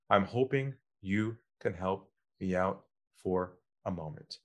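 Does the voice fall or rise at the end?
fall. The voice drops low at the end. The speaker calls it right. "lower your voice at the end. Drop your voice"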